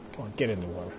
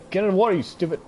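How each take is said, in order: First: Quieter, lower gentle urging; soft coaxing. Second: Louder, higher scolding order; exasperated yell. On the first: Player coaxing a gazelle into the water, soft urging. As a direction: coax it in softly. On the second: Player yelling at a gazelle to get in the water. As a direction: bark the order at the stubborn animal. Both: Real, not acted.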